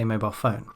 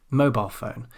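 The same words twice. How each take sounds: First: "mobile phone" with the weight on PHONE; stress on PHONE. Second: "mobile phone" with MOBILE stressed, phone falling back. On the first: Teacher gives the more natural version, stress on PHONE. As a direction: go lightly over "mobile", land on "phone". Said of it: "a bit more natural to say". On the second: Teacher gives the alternative, stress on MOBILE. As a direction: hit "mobile", not "phone". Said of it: "You can also say". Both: Shown as a demonstration.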